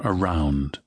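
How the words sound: The vowel is said a non-Scottish way. "But definitely not around anywhere"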